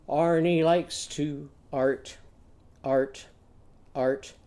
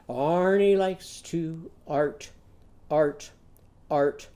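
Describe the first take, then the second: No difference in how they are said.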